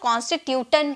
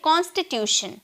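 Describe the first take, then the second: First: The ending is pronounced with a 't' sound. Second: The ending is pronounced with a 'sh' sound. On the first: The speaker calls it wrong. "बहुत लोग इसे टन में pronounce करते हैं" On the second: The speaker calls it right. "शन में हम बोलेंगे"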